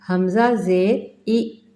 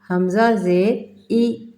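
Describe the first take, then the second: Both takes have the same delivery.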